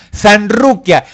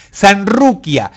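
First: Said in the usual way. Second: Sanruquia read slowly, each syllable drawn out; sounding out slowly. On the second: Shown as a demonstration. Reading a viewer's name aloud, slowly. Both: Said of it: "Soy mujer".

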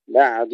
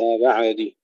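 First: بعد with ayn held smooth, no bounce; still ayn. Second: بعد with a stray vowel after the ayn; wrongly bounced ayn. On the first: Teacher shows correct بعد, ayn without qalqala. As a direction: let the ayn in بعد rest without a vowel. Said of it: "ننتبه ألا نقلقلها". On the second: Teacher shows what to avoid, bounced ayn in بعد. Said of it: "وليس بعد". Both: Shown as a demonstration.

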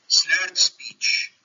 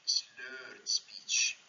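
First: Said in the usual way. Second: "slurred speech" said thick-tongued and slurred. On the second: Shown as a demonstration. Lecturer showing students how slurred speech sounds, slurring. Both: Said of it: "بيتكلم بالطريقه دي".

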